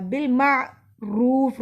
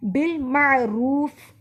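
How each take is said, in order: First: बिल मारूफ recited slowly, the रूफ stretched long; lengthened रूफ. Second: बिल मारूफ slow, with the रूफ lengthened; recited correctly. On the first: Teacher showing students the long रूफ, slow recitation. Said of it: "रूफ को लंबा किया". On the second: Teacher contrasting the wrong reading with a slow chant. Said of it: "बिल मारूफ नहीं पढ़ना". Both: Shown as a demonstration.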